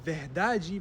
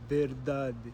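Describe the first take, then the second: First: The unstressed vowels are pronounced fully and clearly. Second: The unstressed vowels are shortened and weakened. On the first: This is how it is said in Brazil. "this might be verdade" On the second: This is how it is said in Portugal. "versus verdade"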